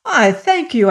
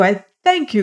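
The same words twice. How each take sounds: First: Eager thanks. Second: Warm thanks. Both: A narrator's reading. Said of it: "cried he".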